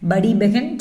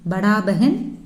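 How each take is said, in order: First: படி ending in an "ee" vowel. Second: படா ending in a long "aa". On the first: Teacher giving the other form of elder sister, "ee" ending. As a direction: say படி as "badee" before பெஹன். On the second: Teacher giving one form of elder sister, "aa" ending. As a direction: say படா as "badaa" before பெஹன். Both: Shown as a demonstration. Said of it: "இப்படியும் pronounce பண்ணிக்கலாம்".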